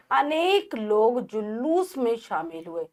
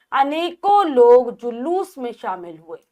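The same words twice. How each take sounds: First: Said in the usual way. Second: अनेकों read louder as the wrong form; wrong sentence read. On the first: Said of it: "अनेक तो अपने आप में ही बहुवचन है". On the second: Shown as a demonstration. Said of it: "तो अनेकों". (अशुद्ध वाक्य, ज़ोर से)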